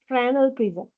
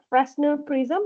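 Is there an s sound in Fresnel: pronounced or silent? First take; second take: silent; pronounced. First: The s in Fresnel is silent. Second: The s in Fresnel is pronounced. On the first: The speaker calls it right. "S is silent. but it is Fresnel prism" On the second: The speaker calls it wrong. "It is not Fresnel prism"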